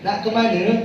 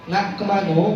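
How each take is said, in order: First: The final vowel sounds like e. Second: The final vowel sounds like o. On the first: The speaker is from Malaysia. "Upin Ipin Malaysia itu aksennya E" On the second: The speaker is from Bengkulu in Sumatra. "Bengkulu, Jambi, Palembang itu aksennya O"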